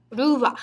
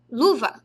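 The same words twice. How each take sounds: First: "luva" said as "ruva" with a tapped r; Japanese-style luva. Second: Said in the usual way. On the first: Shown as a demonstration. Teacher shows how luva sounds in Japanese. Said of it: "Luva, se fosse falar em japonês". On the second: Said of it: "se fosse falar em japonês".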